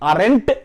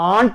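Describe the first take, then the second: First: The word is said with two syllables. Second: The word is said with one syllable. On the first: "అరెంట్ అనొచ్చు" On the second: "ఆంట్ అని చెప్పొచ్చు"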